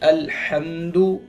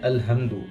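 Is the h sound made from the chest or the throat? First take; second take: throat; chest. First: The h is a tight sound from the throat. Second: The h is a soft breath from the chest. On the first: The speaker calls it right. "दरमियानी हलक से पढ़ेंगे" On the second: The speaker calls it wrong. "सीने से"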